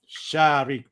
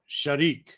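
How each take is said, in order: First: The first vowel is held long. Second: The first vowel is kept short. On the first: The speaker calls it wrong. "what you said was Sharik, right? With a aleph" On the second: The speaker calls it right. "Don't make the first one long"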